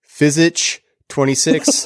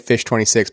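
First: The first word is read out as physich. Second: The first word sounds exactly like fish. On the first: This is a literal reading of the spelling. "I'm pretty sure it's physich 26" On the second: This is the pronunciation the reviewer intended. "he said that it's supposed to be pronounced like fish"

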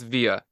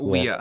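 First: The word is said in medieval Latin style. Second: The word is said in non-medieval style. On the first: The speaker calls it right. "you have to use the medieval pronunciation. I'm sorry. It's via" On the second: The speaker calls it wrong. "It's not via"

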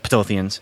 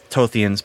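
First: The word starts with a pronounced P sound. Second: The word starts without any P sound. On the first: "but I think it's Ptothians" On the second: "Maybe it's silent, ... So maybe it's that"

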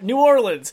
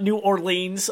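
First: It is pronounced the way most locals say it. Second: It is pronounced unlike the locals' usual way. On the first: "most of us down here say New Orleans" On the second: "so not New Orleans"

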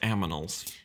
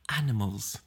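First: The m comes before the n: aminals. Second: The n comes before the m: animals. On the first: "In the US, it's pronounced aminals" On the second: "In England, it's animals"

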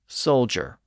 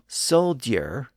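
First: The middle sounds like a single 'j'. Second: The middle sounds like a separate 'd' plus 'y'. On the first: "we tend to cheat a little bit" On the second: "from soldier"

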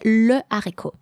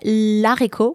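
First: The article is said in full before the noun. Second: The article is shortened and joined to the noun. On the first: The speaker calls it right. "you have to say le haricot. There's no L apostrophe" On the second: The speaker calls it wrong. "you cannot say l'haricot"

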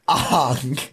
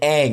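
First: The vowel sounds like 'o' in 'long'. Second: The vowel sounds like 'a' in 'bang'. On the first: "Aang is pronounced Ong" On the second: "I imagine the actor was like, Aang, and he's like, cut. No"

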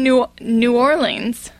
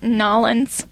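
First: The name is said in full, all syllables clear. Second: The name is squeezed into two short syllables. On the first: This is the standard way outsiders say it. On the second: This is how locals say it.

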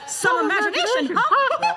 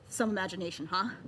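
First: It is said in a Mickey Mouse voice. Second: It is said in his normal voice.

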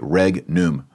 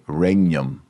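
First: The g and n are both pronounced. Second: The gn sounds like ny, as in onion.

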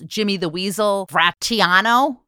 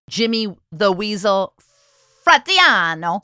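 First: The name is said in a plain accent. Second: The name is said in an Italian accent.

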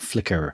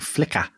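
First: The name ends with an r-coloured vowel. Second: The name ends in a plain vowel without r. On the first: This is the name as it was misheard. The speaker calls it wrong. "Not Flicker" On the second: This is the name from the book. The speaker calls it right. "it was who my dad meant all along"

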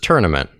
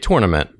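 First: It is said with an Illinois pronunciation. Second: It is said with an East Coast pronunciation. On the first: "Everyone out there says tournament, which is a much more easy way to say it" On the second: "which is the East Coast way of saying it"

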